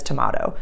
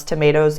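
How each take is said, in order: First: TOMATO said "to-MAH-to"; tomahto pronunciation. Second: Said in the usual way. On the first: Shown as a demonstration. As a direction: give TOMATO an open "ah" in the middle. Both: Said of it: "pronounce tomatoes as tomato".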